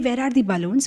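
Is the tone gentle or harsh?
harsh. The tone is sharp and irritated. No respected elder is present. "even now you will say"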